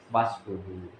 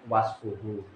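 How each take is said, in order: No difference in how they are said.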